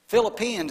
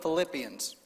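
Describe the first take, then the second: First: The stress falls on an unusual syllable. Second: The stress falls on the usual syllable. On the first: The speaker calls it wrong. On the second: The speaker calls it right.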